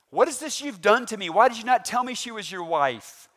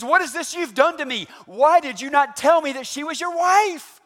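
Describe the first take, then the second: First: Angry Pharaoh. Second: Much higher, loud raging shout; furious Pharaoh. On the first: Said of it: "pretty good to not separate Abram's head". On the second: Pharaoh shouting at Abram over his wife, raging. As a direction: let Pharaoh explode at Abram. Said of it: "he said it louder than that". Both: Acted.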